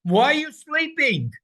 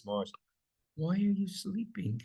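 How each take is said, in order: First: Much higher and louder; high, loud impassioned plea; urgent cry. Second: Higher but softer, no force; mild quiet version; soft, flat question. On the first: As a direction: demand God wake up. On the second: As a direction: ask it gently, wrong take. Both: Shown as a demonstration.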